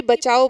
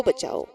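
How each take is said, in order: First: A mild mock cry for help, a touch louder; drowning man calls out; shouting for help. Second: बचाओ trailing off, softer; the cry for help dying away; fading cry for help. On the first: Drowning husband shouts to the crowd, mild mock cry. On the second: Drowning husband's cry fades, softer. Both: A narrator's reading. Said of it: "जोर जोर से चीखने लगता है".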